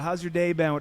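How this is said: The pitch is high and rises upward. It sounds like greeting a stranger. The speaker calls it wrong. "this high upward inflection"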